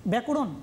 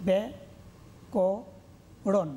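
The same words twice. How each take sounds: First: Said in the usual way. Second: ব্যাকরণ very slowly as bya, ko, ron; syllable by syllable. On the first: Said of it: "না". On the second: Shown as a demonstration. Teacher showing how to divide syllables, slowly separated. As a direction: break ব্যাকরণ into three syllables with long pauses. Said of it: "কীভাবে উচ্চারণ করব?".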